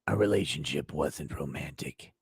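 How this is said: It is said in a rough, raspy voice.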